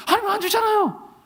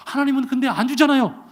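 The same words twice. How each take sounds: First: Much higher, whining grievance; whiny complaint. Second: Said in the usual way. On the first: Retold or imitated. Pastor complaining to God that he never gives, whiny and high. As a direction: pitch it up like a sulking child. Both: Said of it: "제가 그랬어요".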